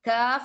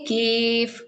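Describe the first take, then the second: First: The vowel sounds like 'ah'. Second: The vowel sounds like 'ay'. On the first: The speaker calls it right. "But കാഫ് എന്നാണ്" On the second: The speaker calls it wrong. "Don't say കേഫ്"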